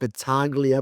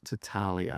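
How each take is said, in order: First: The G sound is pronounced in the name. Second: The G sound is left silent in the name. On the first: The speaker calls it wrong. "I always pronounce it Battaglia" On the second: The speaker calls it right. "the G is silent"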